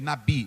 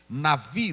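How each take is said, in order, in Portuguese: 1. A consoante do meio é um som de b. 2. A consoante do meio é um som de v. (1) "Tem gente que lê aí nabi, não é nabi" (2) "navi não é nabi"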